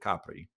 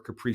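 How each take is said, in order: First: It is said with an Italian pronunciation. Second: It is said with an English pronunciation. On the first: "if you're in Italy, you'll you'll want to pronounce it Capri" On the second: "If you ever heard of Capri Pants or Capri Sun"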